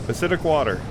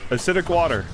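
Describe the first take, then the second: No difference in how they are said.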